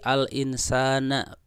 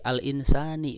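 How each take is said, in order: First: The word ends with an a vowel. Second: The word ends with an i vowel. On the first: "pakai fathah" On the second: "pakai kasrah"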